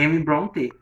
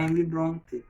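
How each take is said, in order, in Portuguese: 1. O E final de Brontë é pronunciado. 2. O E final de Brontë é mudo. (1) "tem um trema em cima do E" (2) "nunca vai falar Emily Brontë"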